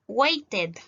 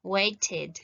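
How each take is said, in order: First: "waited" with a full eh in the ending, wait-ehd; "waited" misread as WAY-tehd; wrong -ed pronunciation. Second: "waited" with an i in the ending, WAIT-id; "waited" as WAY-tid. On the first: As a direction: sound the E of "waited" as eh. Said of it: "Yo no voy a decir". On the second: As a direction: sound the E of "waited" as a short i. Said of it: "voy a decir aquí". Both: Shown as a demonstration.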